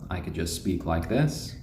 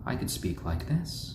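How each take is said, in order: First: It is spoken in a normal everyday voice. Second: It is spoken in a soft, gentle voice. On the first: "I could speak with my regular voice" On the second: "keep them nice, calm, and happy"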